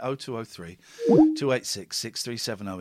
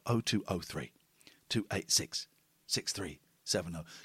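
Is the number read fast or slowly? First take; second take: fast; slowly. First: The number is read at a quick pace. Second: The number is read nice and slowly.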